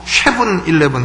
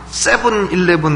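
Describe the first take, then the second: First: The first word starts with a sh sound. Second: The first word starts with a plain s sound. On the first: The speaker calls it wrong. "경상도 사람들 ... 꼭 쉐븐 일레븐 하듯이" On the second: The speaker calls it right. "세븐 발음해보려면 세븐 일레븐 해보려면"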